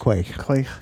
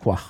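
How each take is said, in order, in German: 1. Das Wort wird anglisiert ausgesprochen. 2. Das Wort wird gälisch ausgesprochen. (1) "Ein bisschen eingelisiert" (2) "das gälische Wort ist eigentlich Quach"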